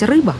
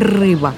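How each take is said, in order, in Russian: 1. «Р» мягкое, не раскатистое. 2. «Р» сильно раскатистое. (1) "Я могла сказать" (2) "Раскатистое «р» мне не давалось"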